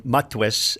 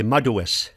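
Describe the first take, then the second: First: Matwes said as two syllables, mat-wes; French borrowing. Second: Madues said in three syllables, ma-du-es; Mi'kmaq pronunciation. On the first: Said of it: "But in Mi'kmaq, they'll say madues". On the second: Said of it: "three syllables instead of two". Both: Shown as a demonstration.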